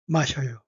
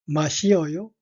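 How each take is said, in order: First: The vowels blend together into one syllable, syeo. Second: The vowels i and eo are pronounced separately. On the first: "Koreans usually say 마셔요" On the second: "You can say it slowly"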